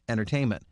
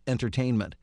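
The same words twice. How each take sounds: First: The middle T is soft and barely heard. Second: The middle T is clearly and crisply pronounced. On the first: It suits a casual, conversational read. "we probably wouldn't overly hit the T" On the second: It suits a formal narration. "make sure that the T is enunciated"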